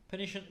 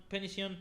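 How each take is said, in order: Both takes have the same delivery.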